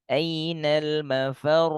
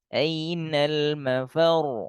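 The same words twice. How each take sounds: First: The final r is said without a jolt. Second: The final r is thick, jolted and half flowing. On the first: The speaker calls it wrong. "Gak boleh ainal mafar" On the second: The speaker calls it right. "rohnya harus ainal mafar"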